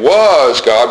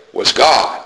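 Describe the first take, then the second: First: "was" drawn out and punched before "God"; stress on was. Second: Short "was", firm weight on "God"; stress on God. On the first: Preacher showing the reading to avoid, stress on "was". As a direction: hit "was" long and hard. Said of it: "not saying". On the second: Preacher showing the habit he wants, stress on "God". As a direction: skip lightly over "was" and land on "God". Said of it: "but rather say". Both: Shown as a demonstration.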